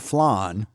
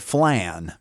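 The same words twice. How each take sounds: First: The vowel does not rhyme with man. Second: The vowel rhymes with man. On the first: "which is the correct pronunciation for flan" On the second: "So it was man flan"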